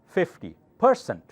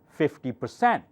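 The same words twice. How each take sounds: First: The stress is on the first syllable. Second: The stress is on the second syllable. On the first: The speaker calls it wrong. "will think you use the word person" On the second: The speaker calls it right. "this is softer. Read louder"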